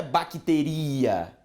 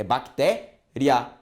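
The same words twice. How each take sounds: First: Bacteria with the stress moved onto a long i, bac-te-RI-a; wrong pronunciation. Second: Bactéria stressed on té, ending in a quick ria; bactéria with a strong té and a weak gliding i; correct pronunciation. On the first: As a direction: stretch the i in bacteria as a full stressed vowel. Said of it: "a pronúncia não é bacteria". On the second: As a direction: say bactéria in pieces, bac-TÉ, then a short ria. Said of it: "é bactéria". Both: Shown as a demonstration.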